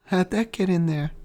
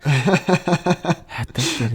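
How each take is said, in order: First: Higher, goofy put-on voice; goofy Peter. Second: Slow, higher mocking drawl; mocking goofy Peter. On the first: Podcaster imitating Peter's goofy smile, high and silly. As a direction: play it goofy and pleased. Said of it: "doing his goofy little smile". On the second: Podcaster mocking cringe Peter line, slow and higher. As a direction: drag it out in mockery. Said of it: "I hated that".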